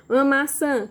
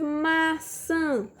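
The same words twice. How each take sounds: First: Said in the usual way. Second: "maçã" slowly split as maaa-çããã; stretched syllables. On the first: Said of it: "Como é que escreve maçã?". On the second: Shown as a demonstration. Teacher helping a child spell, "maçã" in long separate syllables. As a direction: draw out both syllables of "maçã". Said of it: "Olha só o som que você tá falando".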